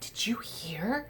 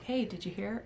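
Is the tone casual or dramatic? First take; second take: dramatic; casual. First: It is said dramatically, with excitement. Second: It is said casually, without drama.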